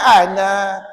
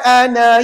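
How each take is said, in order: First: The final vowel is long, with a stop. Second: The final vowel is short, running on. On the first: The reading stops at this word. "Tapi kalau berhenti" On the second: The reading continues without stopping. "Maka puan-puan pergi baca pendek. Jangan baca panjang. Kalau wasal"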